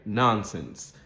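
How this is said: The first vowel is an open American vowel. "more of an American English pronunciation"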